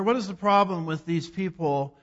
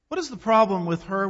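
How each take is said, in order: First: "What" hit hard, the line falling after it; stress on what. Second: "is" lifted, rising at the end; stress on is. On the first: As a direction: punch "What" and let the rest fall. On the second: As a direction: lean on the word "is", then let the question rise. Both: Shown as a demonstration.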